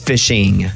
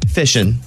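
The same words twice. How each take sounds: First: The ending is said as a full 'ing' sound. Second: The ending is said as a short 'in' sound. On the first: The speaker calls it right. "It's fishing. Your ings" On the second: The speaker calls it wrong. "Another one you do is fishing"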